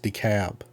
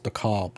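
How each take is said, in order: First: The L is silent, sounding like Ab. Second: The L sound is clearly pronounced. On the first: The speaker calls it right. "it's pronounced DeKalb" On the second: The speaker calls it wrong. "I thought it was DeKalb too"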